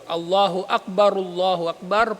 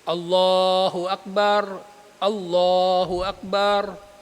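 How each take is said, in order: First: The two phrases are joined without a pause. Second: The two phrases are separated by a pause. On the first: "pag pagdurugtungin" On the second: "yung bawat phrase hiwa-hiwalay"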